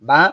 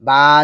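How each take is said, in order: First: The vowel is short and quick. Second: The vowel is drawn out long. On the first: The speaker calls it right. "উচ্চারণ সবসময় দ্রুত করে পড়তে হবে" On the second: The speaker calls it wrong. "বা যেন না হয়ে যায়"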